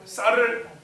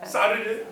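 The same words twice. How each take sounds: Both takes have the same delivery.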